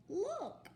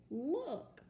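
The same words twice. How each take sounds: First: Much higher, thrilled Look; excited exclamation. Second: High, loud excited Look; excited exclamation. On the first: Teacher modelling excitement for an exclamation mark. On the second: Teacher showing kids how to read an exclamation mark. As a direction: say it like you just spotted something. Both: Shown as a demonstration. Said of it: "so say it with excitement".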